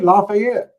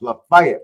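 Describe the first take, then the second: First: It is pronounced the way Louisiana says it. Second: It is pronounced the way Georgia locals say it. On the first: "That's just like Louisiana" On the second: "No, it's pronounced"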